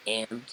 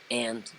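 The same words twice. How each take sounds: First: Mildly imitating a blunt, dismissive manager; flat unimpressed "And?" kept short; curt and?. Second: Repeating the manager's blunt "And?" lightly; a dry, dismissive "And?" quoted back; curt and?. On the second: Retold or imitated. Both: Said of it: "That's what he said".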